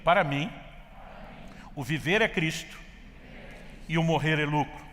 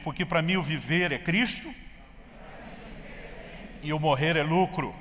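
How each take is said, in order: First: It is said in a calm, plain way. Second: It is said with eager, lively energy.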